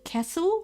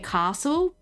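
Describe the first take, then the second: First: It is said the Victorian way. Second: It is said the New South Wales way. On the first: "in Victoria, they like say it like Kessel" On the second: "in New South Wales, we say castle"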